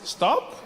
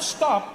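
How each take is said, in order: First: It sounds like a soft suggestion. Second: It sounds like a firm command.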